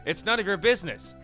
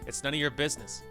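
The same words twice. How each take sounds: First: It is said in a more confident voice. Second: It is said quietly and sounds unsure.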